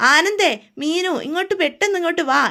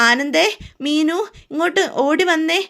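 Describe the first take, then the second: First: More urgent repeated call for help; mother-in-law calling the girls again, more urgent. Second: Higher, slow, louder call across the house; drawn-out call for the girls to come; mother-in-law calling out to the girls in alarm. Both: A narrator's reading. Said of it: "എല്ലാവരും വിളിക്കുവാണ്".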